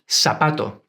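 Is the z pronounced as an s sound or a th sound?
s sound. The z is pronounced as an s sound. This is how it is said in Latin America and southern Spain. "the letters C and Z are pronounced like a S"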